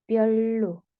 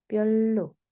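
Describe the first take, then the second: Both takes have the same delivery.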